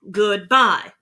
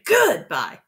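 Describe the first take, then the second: First: The stress falls on the second syllable, bye. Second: The stress falls on the first syllable, good. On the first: The speaker calls it right. "Bye is where you hit your hardest syllable" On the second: The speaker calls it wrong. "We don't say goodbye. You don't say it that way"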